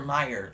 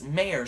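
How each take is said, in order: First: The first syllable sounds like 'my'. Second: The first syllable sounds like 'may'. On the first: "the always way I've pronounced it is Oscar Mayer, like M E Y E R" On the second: "which would you would say it as Mayer"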